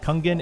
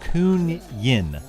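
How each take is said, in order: First: The g is pronounced as a hard g. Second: The g is pronounced as a soft g. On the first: The speaker calls it wrong. "it's not Kungen" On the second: The speaker calls it right. "the G is is a like a soft G"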